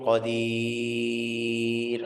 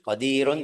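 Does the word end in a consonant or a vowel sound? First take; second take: consonant; vowel. First: The word ends abruptly on the final consonant. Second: The word ends with the full -un ending. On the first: The reading stops at this word. "kalau mau berhenti" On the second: The reading continues without stopping. "terus mau lanjut qadirun dua harakat"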